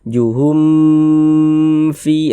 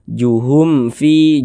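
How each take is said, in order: First: The m sound is drawn out and held long. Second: The m sound is short and not held. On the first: The speaker calls it wrong. "jangan dipanjangkan itu" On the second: The speaker calls it right. "baca pendek saja"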